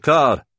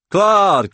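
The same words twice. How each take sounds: First: Loud, high repeated call of Claude; calling again. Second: Loud, high shout of a name across the pub; calling out. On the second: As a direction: hail him loudly from the table. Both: Acted. Drunk colleague calls across pub.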